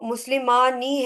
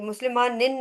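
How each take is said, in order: First: The word ends on a long vowel. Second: The word ends with an added n sound. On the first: The speaker calls it right. "तो मुस्लिमानी है" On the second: The speaker calls it wrong. "ये मुस्लिमानिन नहीं है"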